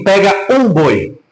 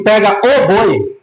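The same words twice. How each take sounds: First: "Pega um boi" with plain "um", a slow casual order; "um" left light, just one ox of many; the wrong version, any ox. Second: "Pega o boi" with "o" stressed, slow and pointed; "o" held and weighted, the best ox; that one ox. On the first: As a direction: say "um boi" slowly, as if any ox will do. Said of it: "ele não fala assim". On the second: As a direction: lean on "o", meaning that very ox. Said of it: "Mas quando ele fala assim". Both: Shown as a demonstration.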